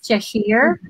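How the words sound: The name is said the British way. This is how it is said in the UK. "in UK, it's Cheshire"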